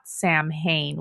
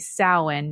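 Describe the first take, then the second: First: It is said as 'Sam' plus 'hain'. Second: It is not said as 'Sam' plus 'hain'. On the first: The speaker calls it wrong. "not Sam Hain, which is the way that I want to pronounce it" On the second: The speaker calls it right. "supposed to be Samhain"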